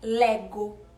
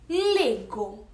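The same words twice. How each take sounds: First: The first vowel is said open. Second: The first vowel is said closed. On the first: The speaker calls it wrong. "e não é lego" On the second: The speaker calls it right. "A pronúncia desse vai ser mais fechadinha"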